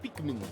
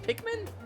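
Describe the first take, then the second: First: The name is said as Peakman. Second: The name is said as Pikmin. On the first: The speaker calls it wrong. "I'll acknowledge though that I'm saying it wrong" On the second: The speaker calls it right. "It's Pikmin. That's how you say it"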